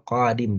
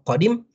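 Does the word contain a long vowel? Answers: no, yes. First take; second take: yes; no. First: The word is said with a long vowel. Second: The word is said with only short vowels. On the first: It means coming. "ini beda panjang pendek" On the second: It has no meaning. "nggak ada yang panjang"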